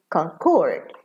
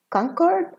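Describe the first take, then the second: First: "concord" stressed on CORD, weak quick "con"; verb stress. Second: "Concord" stressed on CON, high start; noun stress. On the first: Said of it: "and as a verb". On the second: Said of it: "as a noun". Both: Shown as a demonstration.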